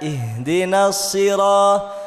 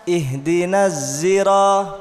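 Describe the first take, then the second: First: The word begins with an emphatic s sound. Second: The word begins with a z sound. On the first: "itu so, pakai sod ya" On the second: "Ada yang ihdinas zira pakai za"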